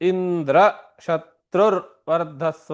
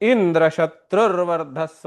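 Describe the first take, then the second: First: The high pitch falls on the compound's last part. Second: The high pitch falls on the compound's first part. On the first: May the slayer of Indra grow. The speaker calls it right. "ತತ್ಪುರುಷ ಅಂತ್ಯೋದಾತ್ತ" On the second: May the one whose slayer is Indra grow. The speaker calls it wrong. "ಬಹುವ್ರೀಹಿ ಆದ್ಯೋದಾತ್ತ"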